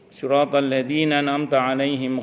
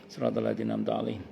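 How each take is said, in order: First: It is recited aloud in a full voice. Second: It is recited quietly in a whisper. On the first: "Itu kalau di apa? Dijaharkan" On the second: "Kalau disirkan"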